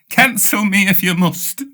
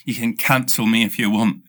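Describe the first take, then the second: First: CANCEL said higher and louder; grand declaration. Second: Said in the usual way. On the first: Shown as a demonstration. Telling listeners to cancel him, grandly raised. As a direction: proclaim it dramatically.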